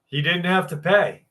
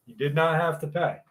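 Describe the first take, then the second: First: Said in the usual way. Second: Not hit hard, quick and a bit softer; stress on not. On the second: Shown as a demonstration. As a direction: lean on the word not to insist.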